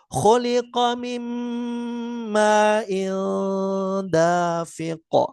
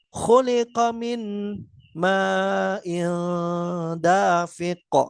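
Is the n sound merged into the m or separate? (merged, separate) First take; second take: merged; separate. First: The n sound merges into the following m, nasalized. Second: The n sound is pronounced separately before the m. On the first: The speaker calls it right. "maka kita leburkan nunnya ke huruf mim" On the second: The speaker calls it wrong. "Jadi bukan dengan membaca terpisah"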